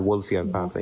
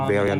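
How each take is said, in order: First: The word is said as Wolffian. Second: The word is said as Wolverian. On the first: The speaker calls it right. "called the" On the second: The speaker calls it wrong. "it's not called the"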